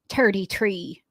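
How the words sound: It is said in a put-on pirate voice.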